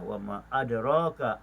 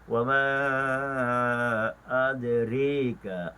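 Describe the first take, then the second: First: The vowel after r is a plain open 'a'. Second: The vowel after r is tilted toward 'i'.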